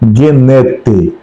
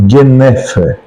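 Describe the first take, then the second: First: The consonant before the last vowel sounds like T. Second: The consonant before the last vowel sounds like F. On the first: "Ou aportuguesando" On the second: "o T H aí tem um som de F"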